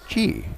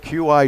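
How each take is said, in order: First: It is said as one single syllable. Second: It is said as two separate letter names. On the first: The speaker calls it right. "but it's pronounced Qi" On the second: The speaker calls it wrong. "We've been saying Q I chargers wrong all this time"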